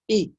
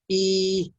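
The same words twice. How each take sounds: First: The vowel is short and clipped. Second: The vowel is drawn out long. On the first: The speaker calls it right. "this فتحة" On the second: The speaker calls it wrong. "not e, no, no, no mad"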